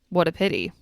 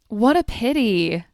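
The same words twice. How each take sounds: First: It is said in a sarcastic, mocking tone. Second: It is said in a sincere, sympathetic tone. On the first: The speaker does not really feel bad about the news. The speaker calls it wrong. "If you sound sarcastic" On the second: The speaker truly feels bad about the news. The speaker calls it right. "a sincere tone is required"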